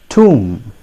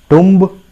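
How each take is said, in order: First: It has a long oo vowel, like room. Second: It has a short u vowel, like tum. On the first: The speaker calls it right. "It is pronounced as tomb" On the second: The speaker calls it wrong. "I'm sorry. That's not going to serve the purpose"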